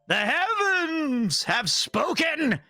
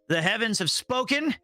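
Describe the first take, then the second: First: It is read with more gusto and energy. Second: It is read with plain, low energy.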